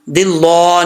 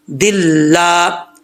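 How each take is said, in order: First: दिल्ला said as rounded dil-law; mistaken heavy lam. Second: Slow दिल्ला with light, held laa; thin lam. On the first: Retold or imitated. Teacher shows what not to read, heavy mispronunciation. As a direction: thicken the end of दिल्ला. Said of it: "नहीं पढ़ना". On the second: Shown as a demonstration. Teacher gives correct reading, light careful pronunciation. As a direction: stretch a thin, open ला in दिल्ला. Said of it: "ये बारीक पढ़ा जाएगा".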